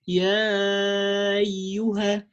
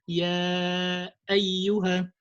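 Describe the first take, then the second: First: The glottal stop is swallowed, words run together. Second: The glottal stop is clearly pronounced between words. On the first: The speaker calls it wrong. "You see that how how how I swallowed this hamza" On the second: The speaker calls it right. "So you have to pronounce the hamza properly"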